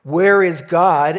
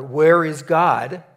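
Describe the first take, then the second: First: Very loud and slow, full booming pastor's demand; biggest, deepest voice. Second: Much louder and slow, a stern pastor pressing the question; deeper, louder pastor voice. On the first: Pastor's final try at the frozen boy, booming and slow. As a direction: blast it out like thunder from the pulpit. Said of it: "in his biggest and deepest voice". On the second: Pastor presses the silent boy, loud and slow. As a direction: lean in and boom it out slowly. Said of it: "in a little bit deeper voice ... says a little bit louder". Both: Retold or imitated.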